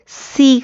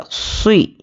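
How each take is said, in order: First: سی with a light, thin s and plain ee; thin saad, mistaken. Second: سوئی with a thick, emphatic s and rounded colour; heavy saad. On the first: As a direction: say سی thinly, like an ordinary seen. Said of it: "سی کر کے باریک نہیں پڑھنا ہے". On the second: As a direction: make the s of سوئی full and heavy. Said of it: "صاد کو موٹا ہی پڑھیں گے". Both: Shown as a demonstration.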